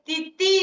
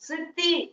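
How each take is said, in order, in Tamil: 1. இந்த சொல் t ஒலியில் தொடங்குகிறது. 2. இந்த சொல் ch அல்லது s ஒலியில் தொடங்குகிறது. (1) "பொதுவா நம்ம சின்ன குழந்தைகள் வந்து இந்த ரா தா" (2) "சித்தி அப்படிங்க"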